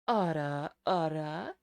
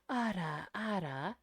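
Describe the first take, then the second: First: It is said breathy with a deeper tone. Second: It is said with a breathy voice. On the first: "you add the deeper tone in the as the third element" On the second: "So then you add the breathiness"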